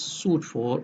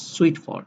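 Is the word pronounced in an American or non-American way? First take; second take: non-American; American. First: It is pronounced without an American accent. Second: It is pronounced with an American accent.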